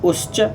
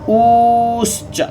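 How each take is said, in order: First: The u vowel is held very briefly. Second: The u vowel is drawn out extra long. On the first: "ये ह्रस्व उकार हो गया" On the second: "ये प्लुत उकार हो गया"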